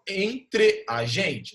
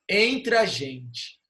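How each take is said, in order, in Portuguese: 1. As duas vogais são ditas como sílabas separadas. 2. As duas vogais se fundem em uma só sílaba.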